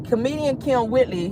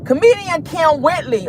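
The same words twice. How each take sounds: First: Said in the usual way. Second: Kim punched higher; emphatic name intro. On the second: Shown as a demonstration. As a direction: announce "Comedian Kim Whitley" with a hard hit on Kim.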